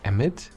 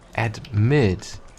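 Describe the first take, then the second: First: The word begins with an 'e' sound. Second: The word begins with an 'ad' sound. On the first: The speaker calls it wrong. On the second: The speaker calls it right.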